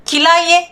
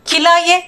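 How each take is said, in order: Both takes have the same delivery.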